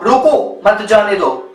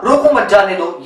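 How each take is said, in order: First: Slow, with a break after "रोको", then "मत जाने दो"; pause after रोको. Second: "रोको मत जाने दो" in one breath, lower; no comma break after "रोको"; run-together phrasing. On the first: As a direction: set "रोको" apart from "मत जाने दो". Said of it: "ऐसे नहीं था". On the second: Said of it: "ये था". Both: Shown as a demonstration.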